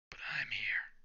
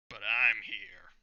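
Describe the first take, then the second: First: Whispered, breathless line; whispered take. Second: Loud, slow, heavy declaration; booming entrance line. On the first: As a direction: hush it like a cool secret. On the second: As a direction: announce it like a hero landing. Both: Acted. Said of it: "I wanted to do this in a certain way".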